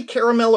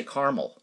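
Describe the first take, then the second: First: "caramel" said as CARE-uh-mel; three-syllable caramel. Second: "caramel" said as CAR-mul; two-syllable caramel. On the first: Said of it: "You say caramel or do you say". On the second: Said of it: "or do you say caramel". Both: Shown as a demonstration.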